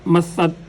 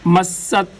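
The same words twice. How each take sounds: First: The middle consonant is a lisped th sound. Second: The middle consonant is a clear s sound. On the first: The speaker calls it wrong. "अगर हम पढ़ेंगे गलत होगा" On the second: The speaker calls it right. "सीन ही को अदा किया जाएगा"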